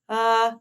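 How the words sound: The vowel starts cleanly, neither breathy nor forced.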